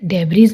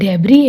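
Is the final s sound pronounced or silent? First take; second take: pronounced; silent. First: The final s sound is pronounced. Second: The final s sound is silent. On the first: The speaker calls it wrong. "डेब्रीज नहीं" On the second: The speaker calls it right. "ये डेब्री है"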